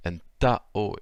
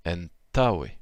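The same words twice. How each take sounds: First: Antao drawn out slowly, syllable by syllable; slow halting try at antao. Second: Antaoe said whole and louder, stress on ta; teacher fixing the word, clear and firm; corrected model word. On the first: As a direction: spell antao out slowly, a little unsure. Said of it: "l'accent tonique est sur le ta". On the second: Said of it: "excusez-moi, j'ai du mal". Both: Shown as a demonstration.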